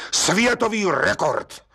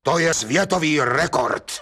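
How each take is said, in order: First: Světový rekord slow and higher, solemnly weighed; solemnly repeated. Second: Said in the usual way. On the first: Acted. Gendarme repeats it to the judge, solemn and slow. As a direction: savour Světový rekord like a title. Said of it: "opakoval četník Hejda slavnostně".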